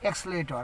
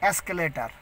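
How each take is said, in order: First: The word begins with an 'ex' sound. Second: The word begins with an 'ask' sound. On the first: The speaker calls it right. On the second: The speaker calls it wrong.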